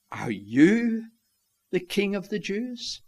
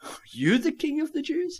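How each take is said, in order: First: Curiosity and contempt. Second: High-pitched, incredulous rising question; sarcastic incredulity. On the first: Pilate sizing up the prisoner before him, curious and contemptuous. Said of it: "a mixture of curiosity and contempt". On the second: Pilate scoffing at a beaten man called king, incredulous. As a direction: squeak it out in sarcastic disbelief. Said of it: "of sarcasm and incredulity". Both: Acted.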